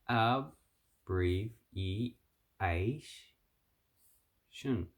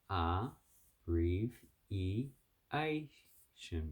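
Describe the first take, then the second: First: The first syllable ends with a b sound. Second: The first syllable has no b sound. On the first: "You can also pronounce it as ab" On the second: "You take out the B"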